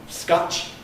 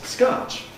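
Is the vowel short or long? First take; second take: short; long. First: The vowel is short and rounded. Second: The vowel is long and unrounded. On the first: "It's not scotch" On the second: "the American R vowel sounds a bit like a long vowel"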